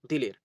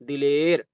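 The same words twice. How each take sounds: First: The last vowel is kept short, not stretched. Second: The last vowel is stretched out long. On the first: The speaker calls it right. "जो या खूब खींच कर नहीं पढ़ी जाती है" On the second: The speaker calls it wrong. "ऐसा नहीं पढ़ेंगे"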